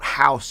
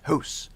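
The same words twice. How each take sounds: First: It is said with an American accent. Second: It is said with a Canadian accent.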